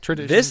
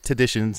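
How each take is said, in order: First: The word is said with the R sound. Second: The word is said without the R sound. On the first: It names an ordinary, regular custom. "not traditions" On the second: It names an irregular, unusual custom. "There's no R in our traditions"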